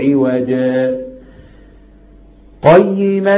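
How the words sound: The voice makes a full stop after the first word. "وقفت وقف العادي"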